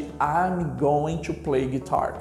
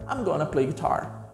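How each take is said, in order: First: Going to is said in full, slowly. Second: Going to is squeezed quickly into gonna. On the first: "ao invés de" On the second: "Quando você fala rápido, fica"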